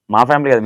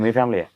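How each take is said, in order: First: Said in the usual way. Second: మీ pressed as the correction, softer falling; మీ family with మీ stressed against మా. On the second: Shown as a demonstration. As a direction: lean on మీ to correct మా.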